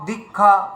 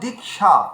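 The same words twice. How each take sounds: First: The middle cluster sounds like a doubled kh. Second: The middle cluster sounds like k followed by sh. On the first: The speaker calls it wrong. "কিন্তু আমরা বলছি কক্ষ দীক্ষা" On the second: The speaker calls it right. "তাহলে আমাদের এখানে উচ্চারণ করতে হবে"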